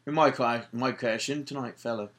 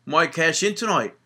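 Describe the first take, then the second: First: Put-on a second go at the Irish accent, slightly softer; Irish accent, adding "fella" to sell it; hammed-up Irish accent imitating Sheamus; bad Irish accent. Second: Put-on a weak first stab at an Irish accent; halfhearted Irish accent imitating Sheamus; bad Irish accent. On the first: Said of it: "my Irish accent is like that". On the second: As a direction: try an Irish accent and miss. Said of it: "That was an awful accent".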